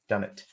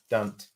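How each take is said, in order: First: The two words are said as two clear syllables. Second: The two words are squeezed into one syllable.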